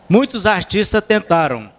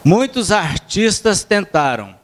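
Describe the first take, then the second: First: It is read at a normal pace. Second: It is read slowly, with pauses.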